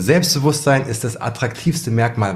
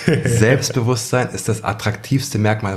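First: The sentence is spoken at a normal pace. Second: The sentence is spoken very slowly.

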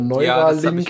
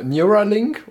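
First: The name is pronounced the German way. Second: The name is pronounced the English way.

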